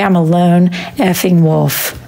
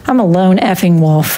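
First: Slow, low, brooding lone-wolf declaration; a hammed-up tough-guy growl; lone wolf line. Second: Said in the usual way. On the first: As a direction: drawl it like a moody lone wolf.

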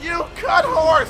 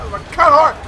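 First: Drawn-out shout at the horse; slower yelled repeat. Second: Loud angry yell at the horse; yelling at enemy. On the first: Gamer yelling at a horse again, slow shout. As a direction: drag the shout out, slowly. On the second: Gamer yelling at a horse enemy, loud. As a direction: shout it at the enemy. Yelling at boss mid-fight. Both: Real, not acted.

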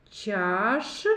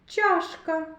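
First: "Чашка" split slowly into two syllables, Ча-шка, with a clear pause; syllable-by-syllable reading. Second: Said in the usual way. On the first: Shown as a demonstration. Teacher reads the word for children, "Чашка" broken slowly into syllables. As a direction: read "Чашка" in drawn-out, separated syllables. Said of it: "Прочитаємо". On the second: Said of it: "Робимо звуковий аналіз слова".

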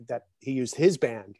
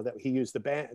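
First: "his" picked out more firmly than the rest; stress on HIS. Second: Said in the usual way. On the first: Real, not acted. Drummer explaining whose band was used, stress on "his". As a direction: lean on "his" to correct yourself.

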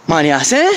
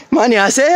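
First: Lower, taunting question; imitating the big guy. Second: Said in the usual way. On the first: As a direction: echo the big guy's challenge in his lower voice. (חיקוי של הבחור בקול נמוך) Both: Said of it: "הוא שואל אותי".

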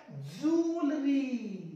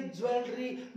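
First: ज्वेलरी as a long drawn "zool-ree"; correct pronunciation. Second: ज्वेलरी as "jwel-ree"; common mispronunciation. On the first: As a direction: stretch ज्वेलरी slowly into "joool-reee". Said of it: "शुद्ध होता है मेरे साथियों". (ज्वेलरी को खींचकर "ज़ूलरी") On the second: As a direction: say ज्वेलरी with a "jwe" start. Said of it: "ज्वेलरी नहीं होता". (ज्वेलरी, "ज्वे" से शुरू) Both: Shown as a demonstration.

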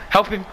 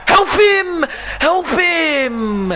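First: Said in the usual way. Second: Higher, louder pleading yell; desperate shout. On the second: Real, not acted. Gamer begging his defenders to help, high shout.

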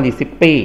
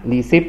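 First: "recipe" in three syllables, ending in a clear "pee"; correct reading of recipe. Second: "receipt" in two syllables, stopping on a p; misreading as receipt. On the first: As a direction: say "recipe" as li-SI-pee, final vowel sounded. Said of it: "อ่านว่า". (อ่าน "recipe" ว่า ลิ-ซิป-ปี้ ออกเสียงท้ายชัด) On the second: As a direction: say "receipt" as li-SIP, no final vowel. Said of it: "ถ้าอ่าน receipt แปลว่าใบเสร็จ". (อ่าน "receipt" ว่า ลี-ซิป ไม่มีเสียงอีท้าย) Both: Shown as a demonstration.

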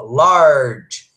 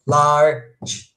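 First: "large" in one syllable, the mouth never closing from the L; "large" said as a single English syllable, no final vowel. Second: "large" said the Portuguese way, in two syllables, large-e; "large" with an extra vowel at the end; Portuguese-style syllables. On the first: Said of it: "Em nenhum momento eu fechei a boca". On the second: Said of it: "Já no português é large". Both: Shown as a demonstration.

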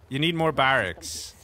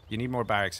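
First: Slow, deliberate advice. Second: Said in the usual way. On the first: Shown as a demonstration. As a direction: spell it out slowly. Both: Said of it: "repeated advice".

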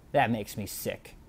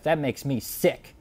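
First: A softer, disgusted mutter; quiet repeat of the disgust. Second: Said in the usual way. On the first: Real, not acted. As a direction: say it under your breath in disgust.

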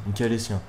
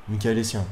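Both takes have the same delivery.

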